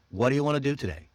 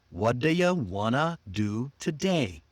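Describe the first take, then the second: First: Quick linked WHAT DO YOU WANNA, falling; naturally reduced. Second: Unhurried, spaced-out reduced phrase; slow and clear. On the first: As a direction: rattle off What do you wanna as one chunk. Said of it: "Reduce it naturally". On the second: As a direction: stretch it out word by word for learners. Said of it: "Slow and clear". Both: Shown as a demonstration.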